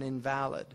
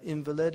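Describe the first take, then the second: First: "invalid" with the stress on VAL; adjective-style "invalid", stressed on VAL; stress on second syllable. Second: "invalid" with the stress on IN; noun-style "invalid", front-stressed; stress on first syllable. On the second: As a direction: hit the first syllable of "invalid": IN-vuh-lid. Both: Shown as a demonstration. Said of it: "where you put your emphasis".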